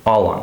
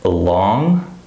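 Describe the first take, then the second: First: "all on" with ALL stressed; first-word stress. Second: "Along" with a light first syllable, stressed LONG; second-syllable stress. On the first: Teacher contrasting two lookalikes, "all on" stressed on first word. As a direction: punch "all", let "on" follow lighter. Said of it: "the first word is stressed". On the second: Teacher contrasting two lookalikes, "Along" stressed on second syllable. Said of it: "the second syllable is stressed". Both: Shown as a demonstration.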